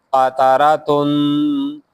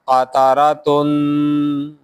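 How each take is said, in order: Both takes have the same delivery.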